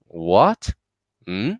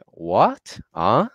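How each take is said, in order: First: "What? Hmm?" each sweeping upward; questioning rise. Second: "What? Huh?" each sweeping upward, happily; happy rising tone. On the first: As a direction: ask "What? Hmm?" with a steep rising tone. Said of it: "like we are asking a question". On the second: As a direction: lift "What? Huh?" steeply as a pleased question. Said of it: "it's a happy tone". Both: Shown as a demonstration.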